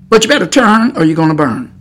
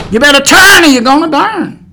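First: Said in the usual way. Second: Louder, higher preacher's cry; raised-voice preaching, urgent repeat; forceful warning. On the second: Real, not acted. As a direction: hammer the warning home at full voice.

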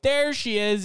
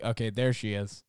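First: The welcome they did not give; big cheer. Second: Dull shrug of a greeting; flat, unimpressed. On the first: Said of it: "I guess it wasn't like". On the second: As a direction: say it like it barely matters. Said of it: "It was more like". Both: Shown as a demonstration.

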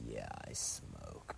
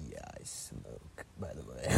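First: Low breathy whisper, slow; deadpan whisper. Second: A casual whispered confession, slowed down; deadpan whisper. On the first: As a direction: murmur it offhand, like a confession. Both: Retold or imitated. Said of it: "just be like".

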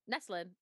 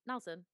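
First: Neslin, with the s before the l; mispronounced as Neslin; wrong pronunciation. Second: Nelson, with the l before the s; corrected pronunciation. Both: Shown as a demonstration.

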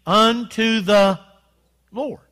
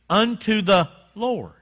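First: "unto the" stretched slow and louder, then Lord; drawn-out call and response. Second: Slow, drawn-out unto the Lord; said with the congregation. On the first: Preacher drawing the congregation into a stretched "unto the Lord". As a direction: stretch it out for the church to join. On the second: Preacher leading the congregation in a drawn-out response. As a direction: lead the crowd through "unto the Lord" slowly. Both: Shown as a demonstration. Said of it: "say it with me".

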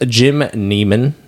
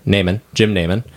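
First: "Neiman" said as NEE-mun; long E slip on "Neiman"; mistaken pronunciation. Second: "Neiman" said as NAY-mun; long A in both takes of "Neiman"; corrected pronunciation. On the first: Host reading the cast list, slipping into NEE-mun for "Neiman". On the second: Host correcting his cast-list slip, "Neiman" as NAY-mun. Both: Real, not acted. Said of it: "or, sorry".

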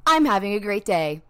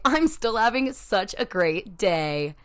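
First: Loud, sassy insistence; a louder defiant chirp; annoying cheery. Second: Slow, loud, defiant sunniness; slow, louder sassy chirp; defiant cheer. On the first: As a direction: say it right back at the bad day, stubbornly. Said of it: "being just as annoying back". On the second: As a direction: stare the day down and insist. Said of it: "look that day in the face". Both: Pretend.

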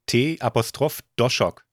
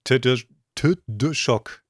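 First: T Apostroph Doshok spelled slowly and carefully; spelled-out pronunciation. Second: Tdoshok sounded out very slowly, stumbling on the Td; struggling pronunciation. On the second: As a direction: haltingly attempt Tdoshok letter by letter. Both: Shown as a demonstration. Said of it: "Ich kann das gar nicht aussprechen".

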